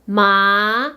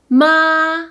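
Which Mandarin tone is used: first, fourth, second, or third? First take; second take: second; first. First: The pitch rises from middle to high. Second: The pitch stays high and level.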